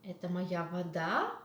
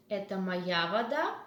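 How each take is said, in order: First: "вода" rising sharply at the end of the question; doubting question, leaning on "вода"; stress on ВОДА. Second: Questioning "Это моя вода" with the emphasis on "моя"; "моя" picked out in a rising question; stress on МОЯ. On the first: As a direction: ask "Это моя вода" with the lift on "вода". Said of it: "make the stress to the different sound". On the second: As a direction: ask it, leaning on "моя". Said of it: "With intonation". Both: Shown as a demonstration.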